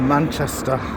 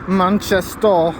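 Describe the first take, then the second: First: It is said in the speaker's usual accent. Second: It is said in a local Manchester accent.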